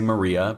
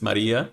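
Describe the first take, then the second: First: The name is said with an American accent. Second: The name is said with a Spanish accent. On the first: The speaker calls it wrong. "my American brain is probably going to say Maria" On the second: The speaker calls it right. "but I do believe that it's Maria"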